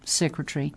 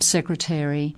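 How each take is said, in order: First: It is said in a British-style way. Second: It is said in an American-style way. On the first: This is how it was said decades ago. "When I was growing up... standard British pronunciation" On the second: This is how it is said nowadays. "rather than now US"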